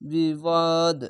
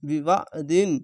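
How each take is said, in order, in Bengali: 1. শব্দটি শেষের ব্যঞ্জনে এসে ছোট করে থামানো হয়। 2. শব্দটি পুরোটা পড়া হয়, '-in' দিয়ে শেষ হয়।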